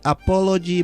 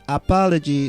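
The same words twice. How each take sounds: First: The first vowel sounds like 'oh'. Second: The first vowel sounds like 'ah'. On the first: The speaker calls it wrong. "not apology" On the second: The speaker calls it right. "the first O is pronounced as ah"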